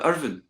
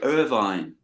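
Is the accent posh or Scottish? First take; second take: Scottish; posh. First: It is said in a Scottish accent. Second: It is said in a posh accent. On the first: The speaker calls it right. "but no" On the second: The speaker calls it wrong. "or like posh people"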